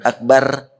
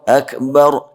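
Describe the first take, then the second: First: The r is pronounced thin and light. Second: The r is pronounced heavy and thick. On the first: The speaker calls it wrong. "bukan akbar" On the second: The speaker calls it right. "karena ro itu kan tafkhim"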